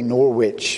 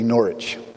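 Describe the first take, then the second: First: Norwich is pronounced the American way. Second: Norwich is pronounced the English way.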